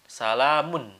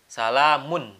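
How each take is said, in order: The two takes are said the same way.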